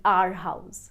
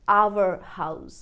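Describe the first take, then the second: First: "our" as "aar" before "house"; one flat syllable in "our"; wrong pronunciation. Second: "our" as "ow-uh" before "house"; two syllables in "our"; full glide on "our"; correct pronunciation. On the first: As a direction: open a, no glide in "our". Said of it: "ना कि". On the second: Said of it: "आप कहेंगे". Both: Shown as a demonstration.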